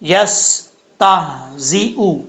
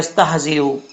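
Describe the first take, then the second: First: The word is said carefully with a whistled s. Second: The word is said quickly without careful articulation. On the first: The speaker calls it right. "सीन में सीटी आएगी" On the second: The speaker calls it wrong. "वो जल्दी में पढ़ देते हैं"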